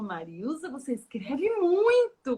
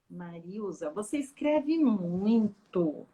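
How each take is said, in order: First: It sounds warm and encouraging. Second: It sounds critical and disapproving. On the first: Writing a lot means writing well. The speaker calls it right. "mas ela fez diferente" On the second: Writing a lot is a bad thing. The speaker calls it wrong. "se ela falasse a mesma frase assim"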